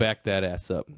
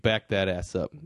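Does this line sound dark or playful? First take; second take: playful; playful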